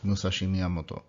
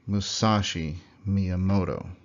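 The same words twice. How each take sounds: First: All syllables have equal loudness and length. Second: Some syllables are louder and longer than others. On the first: The speaker calls it right. "Very little variation between the volume and length of those syllables" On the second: The speaker calls it wrong. "which is how an English speaker would say that"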